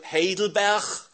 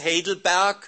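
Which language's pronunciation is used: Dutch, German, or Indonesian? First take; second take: Dutch; Indonesian. First: The name is pronounced the Dutch way. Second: The name is pronounced the Indonesian way. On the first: "af Nederlands" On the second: "af Indonesisch, gewoon Indonesisch"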